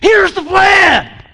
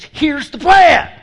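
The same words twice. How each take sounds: First: It is said in an enthusiastic tone. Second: It is said in a mean tone.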